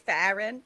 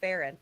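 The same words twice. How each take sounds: First: The name is said the New York way. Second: The name is said the Midwest way.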